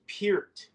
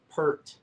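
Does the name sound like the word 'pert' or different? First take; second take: different; like pert. First: The name has a vowel unlike 'pert'. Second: The name sounds like the word 'pert'. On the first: The speaker calls it right. "it's pronounced Peart" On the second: The speaker calls it wrong. "not Pert"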